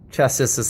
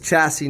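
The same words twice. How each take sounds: First: The final s sound is pronounced. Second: The final s sound is left silent. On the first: The speaker calls it wrong. "not chassis" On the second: The speaker calls it right. "so it's chassis"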